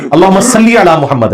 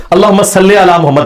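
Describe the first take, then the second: First: "صلی" said as salli, ending in a pure "ee"; slow, careful "صلی" with a clear i, salli; maroof vowel. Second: "صلی" said as salle, ending in "ay"; majhool vowel. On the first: Teacher correcting the durood for listeners, "صلی" as salli. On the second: Teacher quoting the scholars' misreading of durood, "صلی" as salle. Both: Shown as a demonstration. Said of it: "یہ صلی علی تو غلط ہے".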